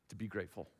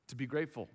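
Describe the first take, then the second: First: Preacher hushes "to be grateful" before repeating it; soft and low. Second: Said in the usual way. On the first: Acted. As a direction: say "to be grateful" much softer and lower, drawn inward. Repeated phrase, softer first take.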